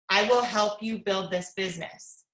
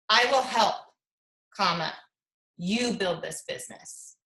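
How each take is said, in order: First: It runs on without a pause after help. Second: There is a pause right after help.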